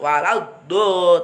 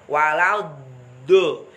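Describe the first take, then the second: First: The final consonant is released quickly and abruptly. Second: The final consonant is held long before release. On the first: The speaker calls it wrong. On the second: The speaker calls it right. "jadi jangan terburu-buru dilepas"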